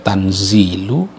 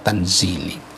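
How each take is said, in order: First: The word ends in a 'u' vowel. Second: The word ends in an 'i' vowel. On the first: "bisa dibaca tanzilu" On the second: "bisa juga dibaca tanzili"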